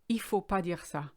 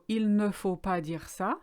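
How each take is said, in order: First: The 'ne' is dropped, said fast and flowing. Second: The 'ne' is pronounced, said more slowly.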